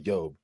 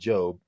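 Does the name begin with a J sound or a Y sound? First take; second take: Y sound; J sound. First: The name begins with a Y sound. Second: The name begins with a J sound. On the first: The speaker calls it right. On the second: The speaker calls it wrong.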